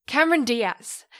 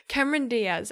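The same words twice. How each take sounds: First: Cameron loud and high, blurted the moment it comes back; triumphant blurt. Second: Said in the usual way. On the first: Real, not acted. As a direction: shout the name out in relief.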